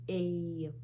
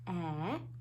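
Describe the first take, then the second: First: The vowel is long, as in cake. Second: The vowel is short, as in cat. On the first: "long vowel sound of A" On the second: "short vowel sound of A"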